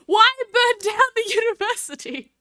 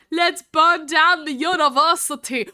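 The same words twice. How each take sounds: First: Higher, laughing, baffled "Why burn down the university?"; baffled question. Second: Said in the usual way. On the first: Real, not acted. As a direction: ask it in amused disbelief.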